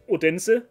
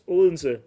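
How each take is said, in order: First: It is read the way the spelling suggests. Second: It is said the local Danish way. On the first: The speaker calls it wrong. "you would think it's Odense or something like that" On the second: The speaker calls it right. "but it's Odense"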